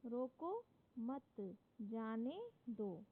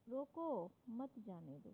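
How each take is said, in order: First: रोको मत run together slowly, break, then जाने दो; pause after मत. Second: रोको held rising, then मत जाने दो dropping away; pause after रोको. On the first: Teacher reads punctuation example to class, pause after मत. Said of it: "विराम चिन्ह का स्थान बदल देने से". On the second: Teacher reads contrasting example to class, pause after रोको. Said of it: "दूसरे वाक्य में". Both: Shown as a demonstration.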